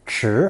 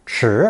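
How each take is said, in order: First: The syllable is said with a rising tone. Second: The same.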